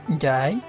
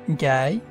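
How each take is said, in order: No difference in how they are said.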